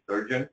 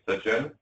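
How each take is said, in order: First: The name is said with an American pronunciation. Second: The name is said with its native pronunciation. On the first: "most people here in States call me" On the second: "true pronunciation is"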